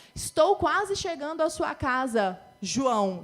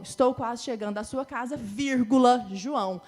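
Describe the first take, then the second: First: Said in the usual way. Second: "vírgula" said loud between "casa" and "João"; comma spoken aloud. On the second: Shown as a demonstration. Teacher calls out "vírgula" loudly before "João".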